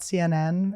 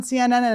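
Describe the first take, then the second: First: Said in the usual way. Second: C N N with the last N repeated; higher-pitched C N N, running on into surplus Ns; extra Ns. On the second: Retold or imitated. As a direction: stutter extra Ns onto the end of C N N. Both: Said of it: "the minute I did the extra ends".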